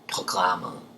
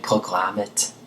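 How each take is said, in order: First: The final t sounds soft, like an l. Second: The final t is sounded as a clear t. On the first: "this ends in a T, which I'm pronouncing like L" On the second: "but you can say programmet if you would like"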